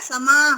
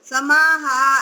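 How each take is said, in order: First: The word ends in a short breathy h. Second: The word ends in a drawn-out long vowel. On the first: The speaker calls it right. "ऐसे विसर्ग का स्वर देना है उसको" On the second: The speaker calls it wrong. "समाहा ऐसे बोलेंगे तो वो बड़ा हो जाएगा"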